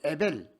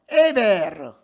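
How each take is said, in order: First: The name ends in a final L sound. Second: The name ends with an added 'reu' syllable. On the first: The speaker calls it wrong. "에벨 아니고" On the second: The speaker calls it right. "유대인식으로 발음하면"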